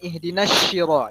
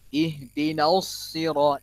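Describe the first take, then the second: First: The s sound is an sh sound. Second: The s sound is heavy with rounded lips. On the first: The speaker calls it wrong. "itu shim" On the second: The speaker calls it right. "Itu baru so. Dibulatkan mulutnya"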